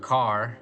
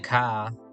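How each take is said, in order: First: The word ends with a clear R sound. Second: The word ends in a long ah without R.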